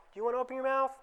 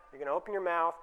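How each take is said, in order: First: Much higher, pleading question on mouth; higher and softer questioning tone, the way not to ask; coaxing question. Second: Said in the usual way. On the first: Shown as a demonstration. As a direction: ask it sweetly as the wrong way. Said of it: "Don't say". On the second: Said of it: "Use statements".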